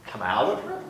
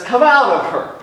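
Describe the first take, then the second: First: Quiet echo. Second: Higher, louder rebuke; commanding order. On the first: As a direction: let it fall away softly. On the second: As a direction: snap the command at the spirit. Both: Retold or imitated. He turns around and he says.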